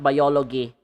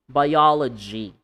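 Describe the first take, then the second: First: The middle consonant is not a j sound. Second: The middle consonant is a voiced j sound. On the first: The speaker calls it wrong. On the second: The speaker calls it right.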